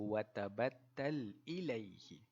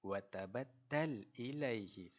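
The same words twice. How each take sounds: No difference in how they are said.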